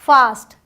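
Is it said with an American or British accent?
British. It is said with a British accent.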